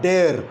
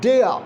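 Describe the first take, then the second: First: "dare" with the final r sounded; wrong pronunciation. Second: "Dare" as gliding "deh-uh"; correct r-less pronunciation. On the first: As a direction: show the mistaken "dare", r pronounced. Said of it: "It's not dare". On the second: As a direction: model "Dare" higher, with no r at the end. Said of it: "There is no ra". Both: Shown as a demonstration.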